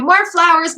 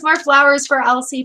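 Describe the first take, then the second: First: More flowers, called out higher and louder; rally the chat, a bright louder call; eager call. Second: Said in the usual way. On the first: Real, not acted. Calling the chat for flowers, eager and louder.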